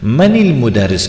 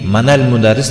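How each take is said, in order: First: The linking vowel after man is i. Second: The linking vowel after man is a. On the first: The speaker calls it right. "маниль мударис говорили" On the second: The speaker calls it wrong. "маналь мударис не говорят"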